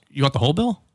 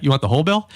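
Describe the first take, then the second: First: Said in the usual way. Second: Ominous echo. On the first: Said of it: "And the guy goes". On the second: Retold or imitated. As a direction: lean on it like a red flag. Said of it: "a red flag".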